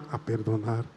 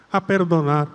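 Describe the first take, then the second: First: Much lower and softer a perdonar; hushed echo. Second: Said in the usual way. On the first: Shown as a demonstration. Priest models the girl's quiet echo of the prayer. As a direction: answer in a near murmur. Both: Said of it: "Empezamos otra vez".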